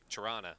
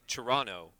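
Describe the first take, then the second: First: It is said the way locals say it. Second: It is said the way most people say it. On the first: The speaker is from the city. "if you're from there, it's like Toronto" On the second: This is how most people say the name. "but we say Toronto"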